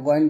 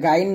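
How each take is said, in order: First: গইন said short and throaty, not গাইন; correct ghain. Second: Said in the usual way. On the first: Shown as a demonstration. Teacher correcting how students say ghain. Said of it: "এটা গইন বলবেন". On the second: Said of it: "এটা গাইন না".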